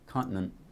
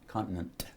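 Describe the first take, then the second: First: The final t is not released. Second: The final t is clearly released. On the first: "with no release" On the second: "you said con continent"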